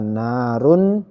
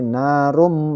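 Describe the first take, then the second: First: The word ends with a clear n sound. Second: The word ends with an m sound. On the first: The speaker calls it wrong. "tidak dibaca narun" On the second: The speaker calls it right. "tapi narum, langsung masuk ke huruf berikutnya mim ini"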